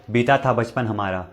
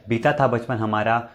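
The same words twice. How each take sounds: The two takes are said the same way.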